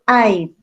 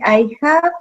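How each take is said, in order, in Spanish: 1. El verbo 'have' se acorta a un sonido v. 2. El verbo 'have' se dice como una palabra completa. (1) "yo digo" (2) "en vez de decir"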